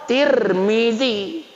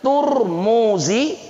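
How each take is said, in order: First: The first vowel is 'i'. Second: The first vowel is 'u'. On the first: "atau Tirmizi" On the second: "tapi Turmuzi"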